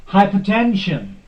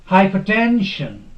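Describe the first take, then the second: The two takes are said the same way.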